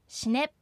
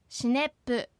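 First: The word ends on the p with no vowel. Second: An extra vowel is added after the final p. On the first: The speaker calls it right. "シネップです" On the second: The speaker calls it wrong. "母音をつけて発音しないように注意してください"

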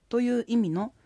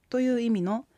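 The two takes are said the same way.

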